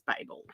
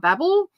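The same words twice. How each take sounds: First: It is said with a British pronunciation. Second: It is said with an American pronunciation. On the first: "the English way" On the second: "the U S way"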